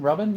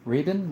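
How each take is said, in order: First: Robin said ROB-in, a rising question, higher; corrected name Robin. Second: Rabin said with a short ah vowel, RAH-bin, as a puzzled question; misread name Rabin. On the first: Streamer corrects the viewer's name to Robin, questioning. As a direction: checks the name again as Robin, rising in pitch. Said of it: "Yeah, Robin". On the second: Streamer misreads a viewer's name, saying Rabin. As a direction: reads the name off chat as Rabin, ah vowel, rising. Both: Shown as a demonstration.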